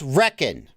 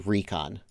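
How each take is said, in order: First: The word is said like 'reck-on'. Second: The word is said like 'ree-con'. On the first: "It's reckon. I've been saying it right this whole time" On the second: "I don't say recon"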